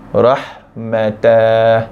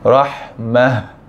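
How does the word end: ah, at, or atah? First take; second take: atah; ah. First: The word ends with an extra tah syllable. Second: The word ends with a soft h sound. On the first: The speaker calls it wrong. "bukan baca dengan rahmatah" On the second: The speaker calls it right. "bacaan betulnya adalah rahmah"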